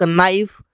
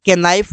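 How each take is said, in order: First: नाइफ said as naif, silent k; नाइफ with no k sound at the start; correct pronunciation. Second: के नाइफ with the k spoken as k-naif; wrong pronunciation. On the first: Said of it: "के को नहीं बोला गया". (नाइफ बिना के की आवाज़ के) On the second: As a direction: sound out the silent k: के नाइफ. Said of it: "कहीं पर भी के नाइफ नहीं बोला गया". (के नाइफ, के की आवाज़ बोलकर (गलत)) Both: Shown as a demonstration.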